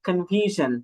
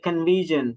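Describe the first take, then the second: First: The middle consonant is a voiceless 'sh' sound. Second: The middle consonant is a voiced 'zh' sound. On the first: The speaker calls it wrong. "এখনো বলি কনফিউশন" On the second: The speaker calls it right. "But it would be like কনফিউশন"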